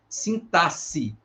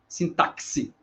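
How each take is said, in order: First: The x is pronounced as an 's' sound. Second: The x is pronounced as a 'ks' sound. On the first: The speaker calls it right. "como se o X tivesse valor de S S" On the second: The speaker calls it wrong. "ele não tem esse som, tá? Como em táxi"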